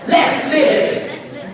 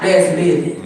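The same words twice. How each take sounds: First: It is said with energy and feeling. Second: It is said flatly, without feeling.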